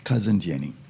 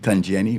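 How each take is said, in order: First: It is said in standard English, in full. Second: It is said in Bahamian dialect, shortened.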